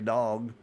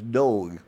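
First: The word is said with standard vowels. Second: The word is said with an Okie vowel. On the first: This is how others would say it. "you don't say dog" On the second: This is how people said it back then. "it's dog"

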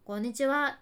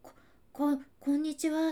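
First: It is said in a cheeky, impudent way. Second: It is stammered in a high, frightened voice.

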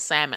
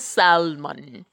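First: The L sound is silent in the word. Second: The L sound is pronounced in the word. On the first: The speaker calls it right. "the L is silent. It's salmon" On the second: The speaker calls it wrong. "There's no such thing as salmon"

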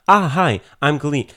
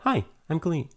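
First: It is said in a loud, brash way. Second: It is said in a quiet, subtle way.

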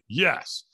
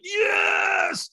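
First: The word is said with little force. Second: The word is shouted with full force. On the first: The speaker is holding back. The speaker calls it wrong. "I'm leaving a lot on the table" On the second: The speaker is fully committed. The speaker calls it right. "I screamed at the top of my lungs"

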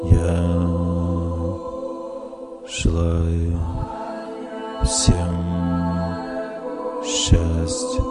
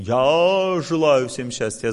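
First: It is said calmly, like a prayer. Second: It is said in a plain, thinking tone.

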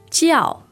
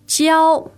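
First: The word is said with a fourth tone. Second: The word is said with a different tone. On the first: It means religion or teaching. "that sounds very like a fourth tone. Is that correct? That's true" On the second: It means to teach. "the same word, but different pronunciation"

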